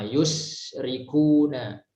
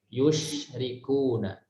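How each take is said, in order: First: The consonant is a plain hissing s sound. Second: The consonant is a hushing sh sound. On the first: The speaker calls it right. "huruf sin juga sama" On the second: The speaker calls it wrong. "jangan yush"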